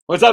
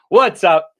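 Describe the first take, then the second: First: It is said fast. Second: It is said slowly.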